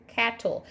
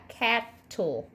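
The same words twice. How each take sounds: First: Said in the usual way. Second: "cattle" broken in two, cat, tle; "cattle" slowly separated between the t's; split into syllables. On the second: Shown as a demonstration. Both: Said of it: "we're gonna separate that word".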